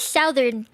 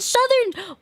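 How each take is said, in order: First: The first syllable has the vowel of 'south'. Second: The first syllable has a short 'uh' vowel. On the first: The speaker calls it right. "I say Southern. And I keep getting told that I'm wrong" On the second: The speaker calls it wrong. "Where did the "su" come from?"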